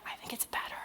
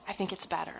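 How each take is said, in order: First: Confiding whisper. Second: Said in the usual way. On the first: Real, not acted. Speaker confessing a little heretical book opinion, whispered. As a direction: whisper it like a slightly heretical secret.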